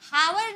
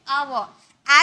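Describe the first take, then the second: First: "हावर" opening on an audible h; wrong sounded H. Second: "आवर" opening straight on ah, louder; silent H. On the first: Teacher rejecting a spelling-based reading, "हावर" with h sounded. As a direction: pronounce the silent letter at the start of "हावर". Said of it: "इसे हम हावर नहीं बोलेंगे". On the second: Teacher giving students the standard word, "आवर" with silent h. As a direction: drop the h and hit "आवर" vowel-first. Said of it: "एच silent होता है". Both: Shown as a demonstration.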